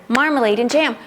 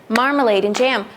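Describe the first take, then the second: The two takes are said the same way.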